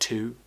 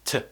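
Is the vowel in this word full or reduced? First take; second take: full; reduced. First: The vowel is a full oo sound. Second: The vowel is a quick, relaxed schwa. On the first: "Words like to" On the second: "We often pronounce them as t"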